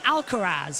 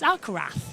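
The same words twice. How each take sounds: First: The final letter is said as a z sound. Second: The final letter is not said as z. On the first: This is how the broadcasters say it. The speaker calls it wrong. "they've been saying Alcaraz" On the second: This is the Spanish way of saying it. The speaker calls it right. "you don't pronounce Z. It's Alcaraz"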